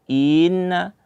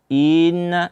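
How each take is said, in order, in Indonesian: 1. Bunyi vokal di awal dipanjangkan. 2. Bunyi vokal di awal dipanjangkan.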